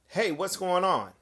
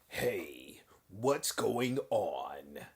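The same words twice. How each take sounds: First: It is said in his normal voice. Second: It is said in a changed, put-on voice.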